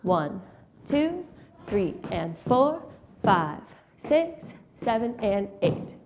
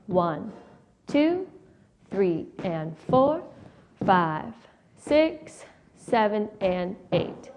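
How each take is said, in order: First: The counting is fast. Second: The counting is at medium speed.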